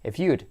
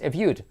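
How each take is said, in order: No difference in how they are said.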